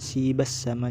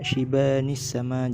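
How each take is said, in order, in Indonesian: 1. Kedua kata menyambung tanpa bunyi 'ni' di antaranya. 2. Bunyi 'ni' yang pendek menghubungkan kedua kata. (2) "jadi bacanya shibanis sama"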